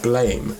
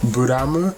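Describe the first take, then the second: First: It is said in one syllable, like blame. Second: It is said in three syllables, bu-ra-mu. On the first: "I'm calling it Blame because it's spelled Blame" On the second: "Buramu, I believe, is the correct pronunciation"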